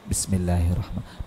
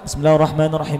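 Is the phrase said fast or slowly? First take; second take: slowly; fast. First: The phrase is recited slowly. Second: The phrase is recited quickly. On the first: The speaker calls it right. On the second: The speaker calls it wrong. "jangan terlalu cepat"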